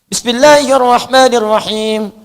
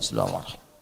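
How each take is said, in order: First: The phrase is recited aloud. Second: The phrase is recited quietly. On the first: This is how one religious group recites it. "N U" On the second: This is how the imam of that mosque recites it. "Bismillahnya sir. Ya, silent. Nggak dibacakan kencang"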